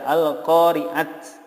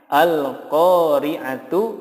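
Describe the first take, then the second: First: The word ends with a bare t sound. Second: The word ends with a full tu syllable. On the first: "tidak diboleh dibaca al-qari'at ya" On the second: "Contohnya al-qari'atu"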